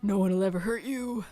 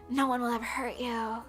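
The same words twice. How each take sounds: First: It is said in a deep, old-man-like voice. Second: It is said in her normal voice.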